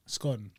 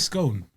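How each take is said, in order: First: "scone" with a short o, as in gone; scone rhyming with gone. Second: "scone" with a long o, as in cone; scone rhyming with cone. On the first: Debating regional ways to say it, "scone" rhyming with gone. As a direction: say "scone" to rhyme with on. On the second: Debating regional ways to say it, "scone" rhyming with cone. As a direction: say "scone" to rhyme with bone. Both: Shown as a demonstration. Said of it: "It's interchangeable".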